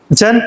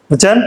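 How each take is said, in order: The two takes are said the same way.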